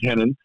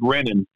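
First: The name begins with an H-like sound. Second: The name begins with an English R sound. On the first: The speaker calls it right. "the R's are pronounced with an H" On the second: The speaker calls it wrong. "when you see it in America, it looks like Renan"

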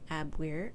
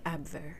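First: The w is pronounced like an English w. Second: The w is pronounced like a v.

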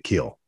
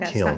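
First: The word ends in an l sound, no n. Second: The word ends in an l-n sound. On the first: This is how the local people say it. The speaker calls it right. "they pronounce it the Kill" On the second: This is not how the local people say it. The speaker calls it wrong. "They don't call it the Kiln"

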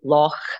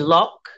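First: It ends with a rasping throat sound. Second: It ends with a hard k sound. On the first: "we obviously would say loch. So it's like it's that sound at the back of your throat" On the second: "you guys on the other side of the pond say loch"

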